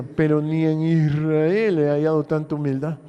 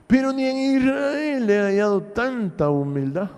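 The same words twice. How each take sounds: First: Said in the usual way. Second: "Pero ni en Israel" repeated higher, stressing "en" with a rising tune; repeated with emphasis. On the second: Shown as a demonstration. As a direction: repeat it higher, leaning on "en Israel" so they listen. (repetición enfática, más aguda, con acento en "en Israel") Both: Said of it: "Oiga bien".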